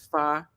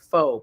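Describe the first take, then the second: First: The word is said with an open 'ah' vowel. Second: The word is said to rhyme with 'go'. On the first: This is how the name is actually said. The speaker calls it right. "but it's not pho. It's fa" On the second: This is how the spelling looks. The speaker calls it wrong. "It looks like pho"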